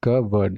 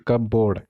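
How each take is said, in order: First: Cupboard as KUH-bud; R dropped. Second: Cupboard as cub-BORD with full O; wrong cupboard pronunciation. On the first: Teacher explaining the silent R, KUH-bud for cupboard. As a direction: say cupboard with a short, weak second syllable. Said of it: "आर है पूरा हट जाएगा". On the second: Teacher warning learners off cub-BORD for cupboard. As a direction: say cupboard as cup plus board. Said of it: "not cupboard". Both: Shown as a demonstration.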